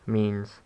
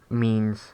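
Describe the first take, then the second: The two takes are said the same way.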